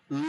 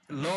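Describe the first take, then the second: First: "ল" as a held dark English l, no full vowel after it; English l demo. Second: Said in the usual way. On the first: Shown as a demonstration. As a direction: hold "ল" as in the end of "well". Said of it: "sound হবে এরকম". ("ল" ইংরেজি ধ্বনির মতো টেনে) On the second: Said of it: "ল বলি আমরা বাংলায়".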